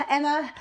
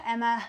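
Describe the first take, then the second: First: Exasperated. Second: Enthusiastic. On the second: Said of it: "like, dead enthusiastic to". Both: Retold or imitated.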